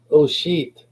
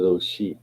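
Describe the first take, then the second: First: High, sudden exclamation; imitating Nana. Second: Said in the usual way. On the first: Grandmother just before she dropped dead, high imitated exclamation. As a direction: pitch it up as Nana caught short. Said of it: "And she was like".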